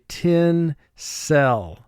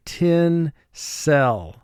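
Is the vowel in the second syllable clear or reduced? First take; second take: clear; clear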